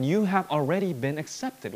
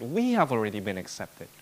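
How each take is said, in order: First: YOU made the prominent word; emphasize "you" to address the listener; stress on YOU. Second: "We" stands out, the rest drops; stress on WE. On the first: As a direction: lean on "you", then fall away. Contrasts you with we. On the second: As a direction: hit "We" to include everyone. Rewords you as we. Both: Real, not acted.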